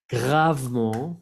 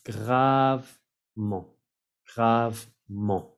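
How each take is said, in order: First: Gravement slowly as grav-mon, silent E and T; two syllables. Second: Gravement very slowly, grav-mon, no T; slow two-syllable demo. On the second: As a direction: drag out each syllable of Gravement. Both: Shown as a demonstration. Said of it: "como lo pronuncio en dos sílabas".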